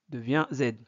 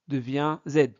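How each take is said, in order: Both takes have the same delivery.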